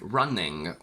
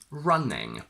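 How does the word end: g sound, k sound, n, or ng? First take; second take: g sound; ng. First: It ends in ng plus a g sound. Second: It ends in a plain ng sound. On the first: "we add a g" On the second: "The standard one is ng"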